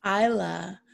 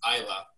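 First: Isla said EYE-la; Isla pronounced. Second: EYE-la, no s, no y; Isla pronounced. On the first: Learning the name, repeating Isla as EYE-la. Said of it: "Oh, good to know". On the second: Correcting the host's reading, Isla said EYE-la. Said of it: "it's actually pronounced". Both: Shown as a demonstration.

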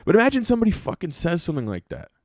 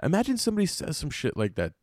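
First: Said in the usual way. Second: Voice breaking. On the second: Real, not acted. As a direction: let the voice break in disbelief. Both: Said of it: "it sounded like my, my voice was breaking".

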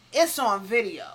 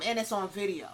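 First: "It's on video" repeated louder for emphasis. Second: Said in the usual way. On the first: Real, not acted. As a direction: hammer home "video".

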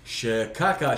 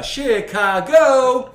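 First: Said in the usual way. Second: High, loud, very stretched CHICAGO; drawn-out catchphrase yell. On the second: Pretend. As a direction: holler Chicago and hold the last syllable. Drags out a film catchword.

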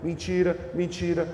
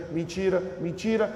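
Both takes have the same delivery.

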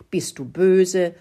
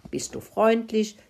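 First: Slow, louder, stern emphasis; cross. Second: Higher, light friendly lilt. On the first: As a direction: lean hard and slowly on "böse". (böse, laut und langsam betont) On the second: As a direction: lift the voice kindly on "freundlich". (freundlich, mit heller angehobener Stimme) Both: A narrator's reading. Mouse contrasts friendly with cross.

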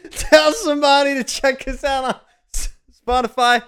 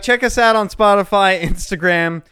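First: Higher, brighter retake of the plug; redone outro. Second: Said in the usual way. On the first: Shown as a demonstration. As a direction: redo the plug higher after fumbling. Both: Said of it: "God damn it".

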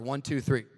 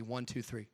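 First: Louder count. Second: Soft whispered count; temple whisper. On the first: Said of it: "A little bit louder". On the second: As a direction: hush the count down. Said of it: "Just a whisper". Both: Shown as a demonstration.

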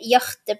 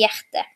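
First: "hjerte" said as "hjarte", with an open a; Nynorsk word form. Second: Said in the usual way. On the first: Shown as a demonstration. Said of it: "på nynorsk". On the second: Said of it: "mens på bokmål sier vi".

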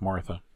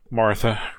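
First: Softer, fading Martha; soft trailing name. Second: Said in the usual way. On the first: A narrator's reading. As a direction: let Martha fade away softly.

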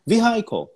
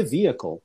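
First: "vehicle" read as spelt, vee-HIGH-kol; mistaken vehicle. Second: "vehicle" as VEE-uh-kol, silent h; correct vehicle. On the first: Teacher reading the word as it looks, mispronounced "vehicle". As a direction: say "vehicle" with a high-pitched, stressed "high". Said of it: "eu falava vehicle". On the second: Teacher questioning the real form, correct "vehicle". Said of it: "Por que vehicle?". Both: Shown as a demonstration.

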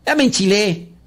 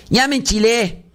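First: Fed up. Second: Higher, exasperated outburst; worked up. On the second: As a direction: blow up in mock irritation. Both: Real, not acted.

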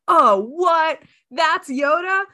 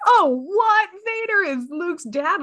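First: High, louder astonished gasp; mock amazement at the reveal; shocked viewer. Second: Mock amazement at the twist; shocked viewer. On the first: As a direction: cinema viewer stunned by the Yoda reveal, astonished. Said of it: "where they're like". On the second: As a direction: cinema viewer stunned to learn Luke's father, astonished. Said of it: "then they're like".

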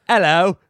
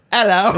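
First: Slow attempt at British accent; a put-on British hello. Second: Higher-pitched attempt at Australian accent; a put-on Aussie hello. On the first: Co-host asked for a British accent, tries it. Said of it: "Give me a British accent". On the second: Co-host asked for Australian, tries an Australian accent. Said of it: "give me an Australian accent". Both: Shown as a demonstration.

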